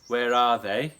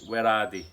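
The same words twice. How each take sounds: First: 'They' is said with a standard 'th' sound. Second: 'They' is said with a 'd' sound, like 'di'.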